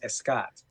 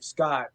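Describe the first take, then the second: First: The name begins with an added E vowel. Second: The name begins directly with an S sound. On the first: Native Spanish speakers say the name this way. "they put an E before my name" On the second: This is the name as the speaker says it. "my name of Scott"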